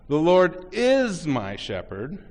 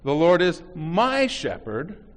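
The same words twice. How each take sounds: First: The word "is" is stressed. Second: The word "my" is stressed.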